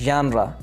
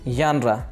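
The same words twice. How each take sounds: The two takes are said the same way.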